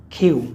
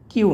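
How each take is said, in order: First: কিউ as "khyu", loud puff after k; aspirated Q. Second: কিউ with a plain k, no puff; unaspirated Q. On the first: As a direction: punch the breath in কিউ. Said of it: "খর মতো করে উচ্চারণ করব". (কিউ-তে 'খ'-এর মতো জোরালো উচ্চারণ) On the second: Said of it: "কিউ না, এটা আমরা খর মতো". (কিউ-তে অল্পপ্রাণ 'ক' উচ্চারণ) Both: Shown as a demonstration.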